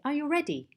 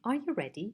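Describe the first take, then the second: First: The voice falls at the end. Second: The voice rises at the end. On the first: The question is repeated more insistently. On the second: It is a plain yes-no question.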